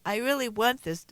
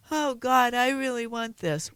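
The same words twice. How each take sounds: First: Said in the usual way. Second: Mock whiny pleading child. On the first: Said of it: "is not stating in fact". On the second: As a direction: whine it like a begging kid. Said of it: "sounds like a whiny child going".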